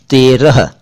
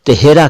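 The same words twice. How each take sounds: First: "तेरह" said TEY-rah, h at the end; long close e, then a light final h in "तेरह"; careful, slow "तेरह"; correct pronunciation. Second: "तेहरा" said te-HE-ra, with the h in the middle; "तेहरा" with a stretched second syllable; common mispronunciation. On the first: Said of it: "यह है तेरह". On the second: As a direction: move the h forward in "तेहरा". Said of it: "गलत कहते हैं". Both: Shown as a demonstration.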